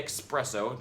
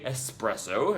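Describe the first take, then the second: First: "espresso" as ex-PRESS-oh. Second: "espresso" as ess-PRESS-oh; espresso without the K. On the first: Real, not acted. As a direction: put a k sound into "espresso". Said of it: "But I say". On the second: Shown as a demonstration. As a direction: clean s, no k sound in "espresso". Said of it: "if you prefer to say".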